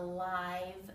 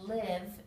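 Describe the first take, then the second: First: The vowel is a long I sound. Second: The vowel is a short I sound. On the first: Happening in real time. "the meaning changes with the long I sound" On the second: To reside somewhere. "short I"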